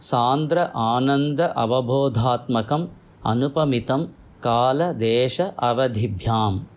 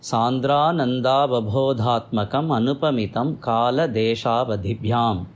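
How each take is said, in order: First: The words are said apart with breaks between them. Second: The words run together with merged vowels. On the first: "இது பிரித்து சொல்லியிருக்கேன்" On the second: "இதை சேர்த்து சொல்கிற போது"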